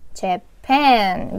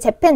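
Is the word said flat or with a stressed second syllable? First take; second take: second syllable; flat. First: The stress falls on the second syllable. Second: The syllables are said evenly, without stress. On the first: The speaker calls it right. "뒤쪽을 올려주셔야 돼요" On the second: The speaker calls it wrong. "우리나라 분들 재팬, 재팬 이렇게 얘기하지만"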